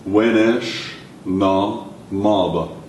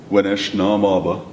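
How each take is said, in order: First: WENESH, NA, MABA very slow with gaps; word by word. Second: Said in the usual way. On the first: Shown as a demonstration. Teacher modelling a question for learners, word by word. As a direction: spell out "Wenesh na maba" one word at a time.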